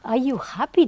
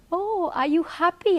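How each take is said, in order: First: Louder, scornful repeat of the question; mock disbelief, louder; incredulous echo. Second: High-pitched retold question from the guru; mock guru, pitched up; imitating the guru. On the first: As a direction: throw it back as if it's absurd. She echoes it in disbelief. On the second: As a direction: lift the voice high to play him asking. She voices the guru's question.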